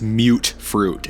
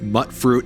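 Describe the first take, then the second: First: The first word sounds like the start of mutated. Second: The first word does not sound like mutated. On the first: The speaker calls it right. "as in mutated fruit" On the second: The speaker calls it wrong. "everybody calls it mutt fruit, and it drives me crazy"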